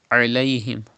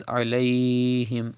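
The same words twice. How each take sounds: First: "Alayhim" with a short "ay" glide; unstretched. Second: "alayhim" with an overlong "ay"; wrongly stretched. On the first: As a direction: glide through "Alayhim" without holding "lay". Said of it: "Without stretching". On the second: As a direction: drag out the "lay" in "alayhim". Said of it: "you don't need to stretch". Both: Shown as a demonstration.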